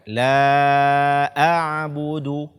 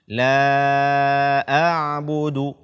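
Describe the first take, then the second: No difference in how they are said.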